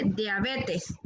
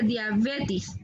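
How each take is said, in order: First: "diabetes" slow and careful, e in the last syllable; measured "diabetes" with a final -es; correct diabetes. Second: "diabetes" said as "diabetis", i in the last syllable; slow "diabetes" with a final -is sound; mispronounced diabetes. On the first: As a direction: model "diabetes" ending clearly in -tes. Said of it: "se dice diabetes". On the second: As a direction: show the faulty "diabetes" ending in -tis. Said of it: "no se dice diabetes". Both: Shown as a demonstration.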